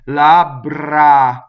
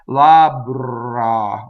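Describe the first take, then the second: First: The R is rolled from the front of the mouth. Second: The R starts from an American English tongue position. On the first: The speaker calls it right. "from up there" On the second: The speaker calls it wrong. "from the American English position"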